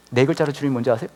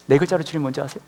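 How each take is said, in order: Both takes have the same delivery.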